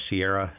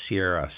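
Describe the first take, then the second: No difference in how they are said.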